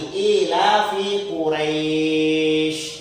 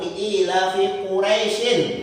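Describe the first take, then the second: First: The final word stops with a lengthened vowel. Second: The final word runs on with a short vowel. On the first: The reading stops at this word. "kalau dimatikan dia harus dipanjang. Dipanjangkan" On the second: The word is joined to the next verse. "kalau disambung langsung ... itu harus dibaca pendek"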